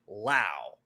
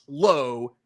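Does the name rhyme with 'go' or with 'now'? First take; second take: now; go. First: The name rhymes with now. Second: The name rhymes with go. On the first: "Brandon rhymes with now" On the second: "Josh is pronounced low"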